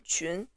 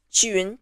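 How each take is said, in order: First: "Qun" as one blended Mandarin syllable; name blended together. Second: "Qiyun" split into qi plus yun; teacher separating the sounds qi and yun in "Qiyun"; name broken into sounds. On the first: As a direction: blend qi and yun into a single "Qun". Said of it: "my name is Qun". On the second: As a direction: sound out "Qiyun" in two parts, softly. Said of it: "Neither qi nor yun exist in English". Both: Shown as a demonstration.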